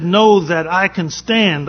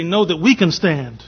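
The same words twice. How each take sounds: First: "I" drawn out and stressed, slowly; slow, stressing I. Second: "we" drawn out and stressed, slowly; slow, stressing we. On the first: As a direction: lean on "I": Know that I can stand. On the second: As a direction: lean on "we": Know that we can stand. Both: Shown as a demonstration. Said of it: "I would say".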